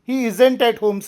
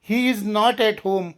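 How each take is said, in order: First: 'Is not' is contracted into one short word. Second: 'Is not' is said in full as two words.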